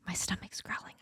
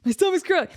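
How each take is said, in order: First: Hushed unvoiced aside; a soft whispered confession. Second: Said in the usual way. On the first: Real, not acted. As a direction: whisper it as if embarrassed. Aside about her hungry stomach.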